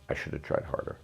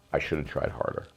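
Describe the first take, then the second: First: A soft, toneless repeat of "I should have tried harder"; quiet repeat. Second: Said in the usual way. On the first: Real, not acted. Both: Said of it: "Okay, as a man".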